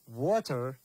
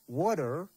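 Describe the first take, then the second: First: It is said with a British accent. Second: It is said with an American accent. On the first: "This water just in British" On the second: "Water in American"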